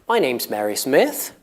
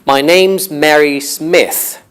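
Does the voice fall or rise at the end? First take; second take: rises; falls. First: The voice rises at the end. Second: The voice falls at the end.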